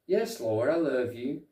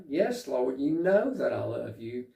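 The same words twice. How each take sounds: First: Said in the usual way. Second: More emotional. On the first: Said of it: "Peter just kinda says". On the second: Retold or imitated. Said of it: "it seems like it's more emotional".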